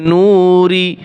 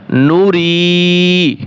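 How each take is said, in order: First: "নুরি" with "নু" dragged out long; wrongly stretched. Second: "নুরি" with a short "নু" and a long held "রি"; short first vowel. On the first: Teacher showing learners a wrong reading, "নুরি" with a long "নু". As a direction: draw out the "নু" of "নুরি" as a mistake. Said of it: "হবে না". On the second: Teacher modelling the correct reading, "নুরি" short on "নু", long on "রি". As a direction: keep "নু" brief, then stretch "রি". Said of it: "টান দেওয়া যাবে না". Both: Shown as a demonstration.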